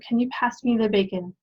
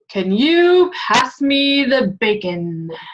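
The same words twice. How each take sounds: First: The voice sounds hurt, as if in pain. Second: The voice sounds grand and regal, kingly. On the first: "In pain. / Yes. So it's hurt" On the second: "I I feel like regal, like a king"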